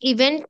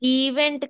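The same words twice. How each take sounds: First: The first vowel is kept short. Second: The first vowel is stretched out long. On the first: The speaker calls it right. "ఈవెంట్ అంటే సరిపోతుంది" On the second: The speaker calls it wrong. "ఈవెంట్ కాదండి, సాగదీ అని అవసరం లేదు"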